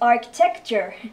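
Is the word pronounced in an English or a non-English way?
non-English. The word is pronounced in a non-English way. The speaker calls it wrong. "not architecture"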